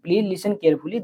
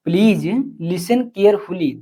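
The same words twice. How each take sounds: First: Said in the usual way. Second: Please listen carefully, each word drawn out slowly; slow, careful model sentence; slow dictation. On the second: Shown as a demonstration.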